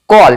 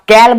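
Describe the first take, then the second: First: The vowel is a rounded 'aw' sound. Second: The vowel is a flat 'a' as in cat. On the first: The speaker calls it right. "इसे कॉल पढ़ते हैं" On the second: The speaker calls it wrong. "कॉल को आप कैल नहीं बोलोगे"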